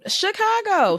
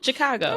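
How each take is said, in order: First: The first syllable starts with a 'sh' sound. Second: The first syllable starts with a 'ch' sound. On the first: The speaker calls it right. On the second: The speaker calls it wrong.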